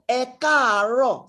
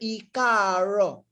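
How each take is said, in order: First: The first vowel sounds like 'eh'. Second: The first vowel sounds like 'ee'. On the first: The speaker calls it right. "it sounds e, e. So that is why it is ekaro" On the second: The speaker calls it wrong. "Don't call it e. Don't say ikaro"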